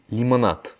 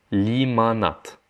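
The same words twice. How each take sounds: First: Said in the usual way. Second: Limonade said the Russian way, slow, as "limanat". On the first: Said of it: "c'est comme en français". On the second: Shown as a demonstration. Teacher contrasts the Russian word with French, slowly. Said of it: "ça se prononce différemment".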